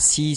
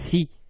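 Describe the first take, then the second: First: It begins with an s sound, tongue behind teeth. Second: It begins with a th sound, tongue between teeth. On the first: The speaker calls it wrong. "ça c'est faux" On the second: The speaker calls it right. "C'est thi et non pas si"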